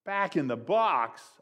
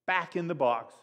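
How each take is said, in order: First: Slow, drawn-out mock wail; dismayed childish wail. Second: Said in the usual way. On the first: A narrator's reading. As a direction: stretch it out like a dismayed kid. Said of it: "I wailed". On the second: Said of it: "He suggested we just put".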